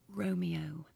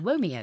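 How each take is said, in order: First: The word begins with a clear R sound. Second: The word begins with a W-like sound. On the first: The speaker calls it right. "my tongue was in the right place so that I could go" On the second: The speaker calls it wrong. "instead of going Womeo, which would have been a disaster"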